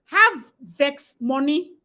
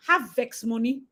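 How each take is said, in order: First: Slow emphatic. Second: Said in the usual way. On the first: Shown as a demonstration.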